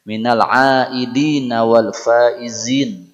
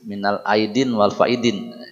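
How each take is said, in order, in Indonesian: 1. Kata terakhir diucapkan dengan bunyi Z. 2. Kata terakhir diucapkan dengan bunyi D. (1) "yang kedua ada faizin" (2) "Salah ucapannya"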